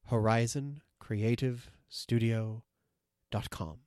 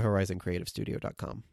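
First: It is said more slowly. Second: It is said at normal speed.

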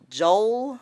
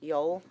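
First: The word begins with a J sound. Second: The word begins with a Y sound. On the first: The speaker calls it wrong. "It's because of the J. Always thrown off" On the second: The speaker calls it right. "has that Y sound to it"

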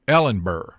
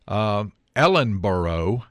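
First: The name ends with a clipped burr. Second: The name ends with a full boro. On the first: This is how locals say it. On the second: This follows the spelling.

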